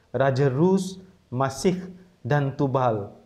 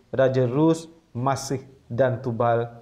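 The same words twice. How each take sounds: No difference in how they are said.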